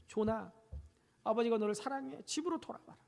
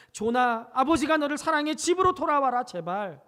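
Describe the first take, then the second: First: Soft, tender "아버지가 너를 사랑해"; tender plea. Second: Pleading call. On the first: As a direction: read the father's note gently. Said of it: "아들에게 글을 남겼어요". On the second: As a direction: call it out across the rocks, pleading. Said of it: "바위만 있으면". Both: Retold or imitated.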